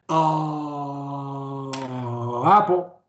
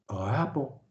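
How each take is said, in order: First: The ah is drawn out long. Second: The ah is kept short.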